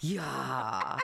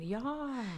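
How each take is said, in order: First: "Yeah" low, drawn out, with a laugh. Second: "Yeah" high and falling. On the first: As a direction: drop "Yeah" deep and long. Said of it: "We say it lower". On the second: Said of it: "or even". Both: Shown as a demonstration.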